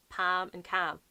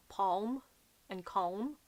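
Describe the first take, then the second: First: Palm and calm with short A, pam and cam; own pronunciation. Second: Palm and calm with rounded O, pohm and kohm; imitated odd pronunciation. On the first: Shown as a demonstration. Answering the audiobook with her own vowels, pam and cam. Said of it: "I'm just like, "Uh, what?". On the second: Quoting an audiobook's pronunciations, rounded palm and calm. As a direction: say palm and calm with long O vowels. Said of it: "some of the pronunciations of".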